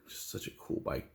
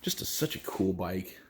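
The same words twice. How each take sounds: First: Soft breathy whisper. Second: Said in the usual way. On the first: Real, not acted. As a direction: whisper it to yourself. Repeats the line, now whispered.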